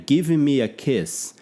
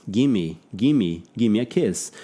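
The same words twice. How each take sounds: First: "Give me a kiss" slow, each word separate; careful word-by-word reading; full form, slow. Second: "Gimme" said as one blended word; relaxed native contraction; reduced gimme. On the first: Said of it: "Não, nem falaria". (pronúncia lenta palavra por palavra) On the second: ("gimme" emendado numa palavra só) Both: Shown as a demonstration.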